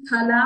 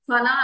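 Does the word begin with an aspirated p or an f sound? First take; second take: aspirated p; f. First: The word begins with a plain aspirated p. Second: The word begins with an f sound. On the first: The speaker calls it right. "ఫల అనాలండి. ఫ అంటే ఒట్టు ఫ అనమాట" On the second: The speaker calls it wrong. "ఫల అనకూడదు"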